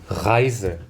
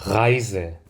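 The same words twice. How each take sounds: No difference in how they are said.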